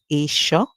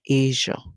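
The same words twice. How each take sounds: First: The middle consonant is a voiceless 'sh' sound. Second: The middle consonant is a voiced 'zh' sound. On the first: The speaker calls it wrong. "that's where they use the S eight sound" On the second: The speaker calls it right. "the pronunciation is Asia"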